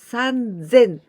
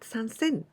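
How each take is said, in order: First: The middle consonant is a voiced z sound. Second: The middle consonant is a voiceless s sound. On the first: The speaker calls it right. "this was the irregular one" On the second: The speaker calls it wrong. "not sansen"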